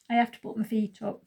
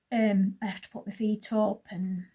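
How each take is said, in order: First: Talking through hiccups; speech interrupted by hiccups. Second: Said in the usual way. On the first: Real, not acted. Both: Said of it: "Sorry, I've got hiccups".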